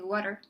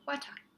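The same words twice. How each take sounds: First: It is said in an American accent. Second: It is said in a British accent.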